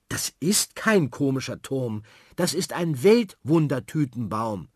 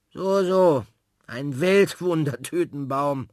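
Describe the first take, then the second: First: Put-on indignant girl. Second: Slow, louder, teasing echo; mock doubtful. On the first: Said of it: "Sophie ist empört". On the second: Frau Klotz repeats the word, teasing and slow. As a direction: humour the child without believing.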